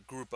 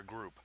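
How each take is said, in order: First: "group" said as a German word, with an added final vowel; guessed German pronunciation. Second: Said in the usual way. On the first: Shown as a demonstration. Game master guessing how Germans pronounce the unit, "group" given a German pronunciation. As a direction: say "group" the German way, softly ending in -uh. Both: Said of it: "as I guess they would pronounce it".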